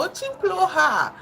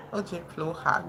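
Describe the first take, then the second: First: Очень плохо burst out high and loud, half laughing; exclaiming high and loud. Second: Said in the usual way. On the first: Real, not acted. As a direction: toss it off in a loud, high, self-mocking cry. Laughing denial of good Russian.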